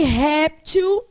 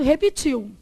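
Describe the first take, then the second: First: "réptil" loud and slow, stressed on RÉP; stress on first syllable. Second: "repetiu" with the stress on the last syllable, -tiu; stress on final syllable. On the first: Teacher giving the other variant to the class, first-syllable stress. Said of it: "Que pode ser". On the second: Teacher reading the written word to the class, final-syllable stress. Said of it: "Tá escrito". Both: Shown as a demonstration.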